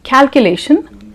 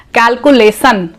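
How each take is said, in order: First: "Calculation" ending in a clear "shun"; correct pronunciation. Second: "calculation" ending in "sun"; wrong pronunciation. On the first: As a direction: say Calculation as "cal-kyu-lay-shun". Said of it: "it sounds good". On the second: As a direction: say calculation with s for sh, "cal-coo-lay-sun". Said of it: "Some people say calculation". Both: Shown as a demonstration.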